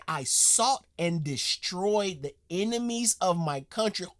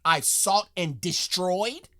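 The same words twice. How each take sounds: First: Lightly voiced solemn old soldier, slowed down; mock grave quote. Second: Slow, rising, mock-baffled repeat; incredulous mock echo. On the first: Repeating the soldier's line to viewers, a touch of mock solemnity. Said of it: "He said". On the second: Mocking the soldier's phrasing for viewers, slow incredulous echo. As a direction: echo his words like they're absurd. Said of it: "to talk like that".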